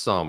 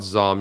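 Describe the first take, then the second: First: "Sum" starting with a hissed S sound, not a Z; "Sum" with S as in "sun"; pronounced with S. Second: Said in the usual way. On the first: Shown as a demonstration. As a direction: say "Sum" with an unvoiced S at the front. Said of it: "it's actually pronounced". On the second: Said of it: "it's actually pronounced Sum".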